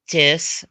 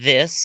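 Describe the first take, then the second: First: The word begins with a hard 'd' sound. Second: The word begins with a soft 'th' sound. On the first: "they don't say the the th" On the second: "instead of this"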